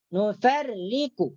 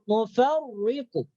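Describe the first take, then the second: First: The r sound is light and thin. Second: The r sound is heavy and thick. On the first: The speaker calls it right. "maka ra tersebut dibaca nipis, dibaca tarqiq" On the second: The speaker calls it wrong. "jangan dibaca ... Itu salah. Karena itu ditebalkan"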